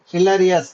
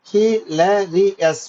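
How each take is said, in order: First: Said in the usual way. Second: Hilarious very slowly, in four separate beats; syllable by syllable. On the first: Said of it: "How many syllables". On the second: Shown as a demonstration. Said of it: "four syllables".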